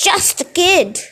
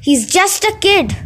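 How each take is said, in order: First: High falsetto mimicry, jeering; mocking falsetto. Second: Said in the usual way. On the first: Gabe mocking his friend Eddie in falsetto. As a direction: squeak the words back in a sneering falsetto. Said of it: "mimicked in a falsetto voice". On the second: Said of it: "his friend Eddie interrupted".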